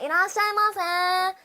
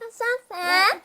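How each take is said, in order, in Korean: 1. 인사를 전부 다 말해요. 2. 짧게 줄인 끝부분만 말해요. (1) "근데 다 말하면 안 돼요" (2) "그렇게 이렇게 해주셔야 돼요"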